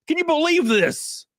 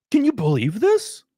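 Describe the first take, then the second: First: High, astonished question; amazed and delighted; stunned disbelief. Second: Said in the usual way. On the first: Real, not acted. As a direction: marvel at the gift.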